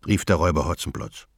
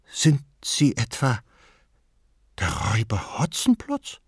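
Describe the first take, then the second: First: Said in the usual way. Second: Timid question, Hotzenplotz rising; anxious. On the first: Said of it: "narration take". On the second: A narrator's reading. Frightened grandmother asks if he is the robber Hotzenplotz. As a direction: ask fearfully, Hotzenplotz lifted in a rising question. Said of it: "mit ängstlicher Stimme fragte sie".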